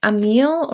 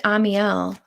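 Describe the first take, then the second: First: Amiel said as two syllables, uh-MEEL; trying a pronunciation. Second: Amiel in three syllables, AH-mee-el; alternative pronunciation. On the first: Reader checking a viewer's name, Amiel pronounced uh-MEEL. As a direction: say Amiel to rhyme with "a meal". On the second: Reader offering a viewer another option, Amiel pronounced AH-mee-el. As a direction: open Amiel with AH and end it on EL. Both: Shown as a demonstration. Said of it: "Did I pronounce your name right".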